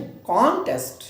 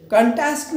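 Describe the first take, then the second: First: कॉन्टेस्ट with a full, strong CON and lighter falling test; stress on first syllable. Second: कंटेस्ट with a quick weak first syllable and a loud TEST; wrong stress, second syllable. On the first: Teacher correcting the noun, कॉन्टेस्ट with first-syllable stress. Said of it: "इसको हम जो है जोर दें पहले". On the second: Teacher showing the mistake, कंटेस्ट stressed on second syllable. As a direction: hit the end of कंटेस्ट, reduce the first vowel. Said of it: "कंटेस्ट नहीं". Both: Shown as a demonstration.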